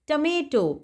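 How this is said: It is said with an American pronunciation.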